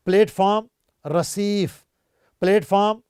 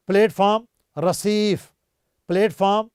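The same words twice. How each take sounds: The two takes are said the same way.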